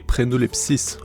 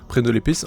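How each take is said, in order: First: The name ends in -lepsis, with an extra s. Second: The name ends in -lepis, with no extra s. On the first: The speaker calls it wrong. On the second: The speaker calls it right.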